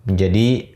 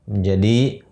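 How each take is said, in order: Both takes have the same delivery.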